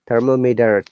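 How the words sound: American accent, T flapped like a D. "T sounds like D, flap T"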